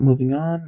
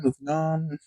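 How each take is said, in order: First: Said in the usual way. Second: Much softer repeat, letting it trail away; fading, dismissive. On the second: Retold or imitated. Brushing off the weird moment with her classmate, trailing off quietly. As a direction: drop the voice as you brush it off. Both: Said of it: "You know what?".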